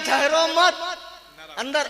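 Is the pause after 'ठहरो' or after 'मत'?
after मत. The pause comes right after 'मत'.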